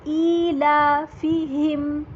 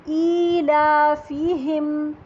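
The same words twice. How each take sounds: No difference in how they are said.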